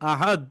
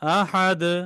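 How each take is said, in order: First: The final consonant stops without any bouncing release. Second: The final consonant is released with a slight bounce. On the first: The speaker calls it wrong. "এরকম বলে থামবো না।" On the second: The speaker calls it right. "আমি কলকলা করলাম, মানে একটু ধাক্কা দিয়ে ছেড়ে দিলাম"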